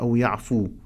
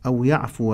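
First: The verb ends with a plain long 'u'. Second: The verb ends with a short 'a' vowel. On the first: The verb stands without a governing particle. The speaker calls it wrong. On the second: The verb follows a particle that sets its case. The speaker calls it right.

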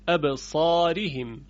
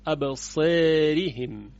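First: The long vowel is an open 'a' sound. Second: The long vowel leans toward an 'e' sound. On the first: This is the standard eloquent reading. "در لهجه فصیح و بیشتر قرائات به فتح خونده می شود" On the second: This is a regional dialect reading. "قرائت ابو عمرو بصری با توجه به لهجه بنی تمیم این گونه خونده است"

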